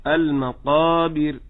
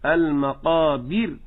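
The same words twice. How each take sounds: First: المقابر slow, stressed early, falling; correct stress. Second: المقابر slow, pressed on the ba, rising; wrong stress. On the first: Teacher models المقابر correctly. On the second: Teacher shows the wrong stress on المقابر. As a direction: lean on the ba of المقابر. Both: Shown as a demonstration. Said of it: "ما أقولش".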